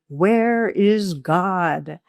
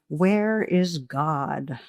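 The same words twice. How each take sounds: First: It is said louder and more sternly. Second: It is said sternly at moderate volume.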